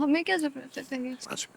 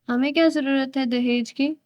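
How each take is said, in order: First: It is said emotionally, as if crying. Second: It is said plainly, without crying emotion.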